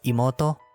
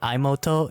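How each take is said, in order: First: The first vowel is an 'ee' sound. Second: The first vowel is not an 'ee' sound. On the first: The speaker calls it right. "it's imoto" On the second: The speaker calls it wrong. "not imoto"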